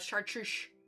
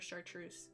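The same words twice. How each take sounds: First: The word is said with extra sh sounds. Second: The word is said with its usual sounds.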